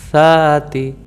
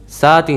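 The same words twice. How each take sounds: First: It starts with the tongue between the teeth. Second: It starts with a hissing s sound. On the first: The speaker calls it right. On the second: The speaker calls it wrong.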